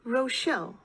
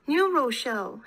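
First: Said in the usual way. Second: Firm stress on "New"; insistent correction. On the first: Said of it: "said Schmoll". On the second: A narrator's reading. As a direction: correct him, leaning on "New". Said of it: "Hannah insisted".

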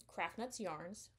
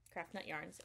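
First: "Nuts" said with a final s, slow and hesitant; slipping the extra s into "Nuts"; misspoken Nuts. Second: "Nut" said singular with no s, a little softer; quiet self-correction, "Nut" without the s; corrected Nut. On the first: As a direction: say "Craft Nuts Yarns" with the plural s on "Nuts". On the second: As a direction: correct yourself to "Craft Nut Yarns", dropping the s from "Nut". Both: Real, not acted.

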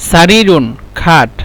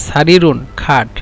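Both takes have the same delivery.

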